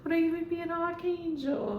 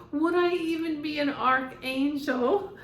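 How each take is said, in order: First: Higher, fast, put-on theatrical sigh; fast diva voice. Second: Higher, louder theatrical plea; dramatic archangel voice. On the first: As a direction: rattle off like a dramatic diva. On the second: Retold or imitated. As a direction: ham up a wounded diva. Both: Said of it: "That's how he".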